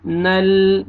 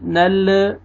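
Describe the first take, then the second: First: "नल" closed on a steady L; clean, held L in "नल"; still final lam. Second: "नल" with an extra "uh" after the L; faulty released L, "nal-uh"; wrong bounced lam. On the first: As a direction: rest on the L of "नल" without bouncing. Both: Shown as a demonstration. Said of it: "नल नहीं पढ़ना".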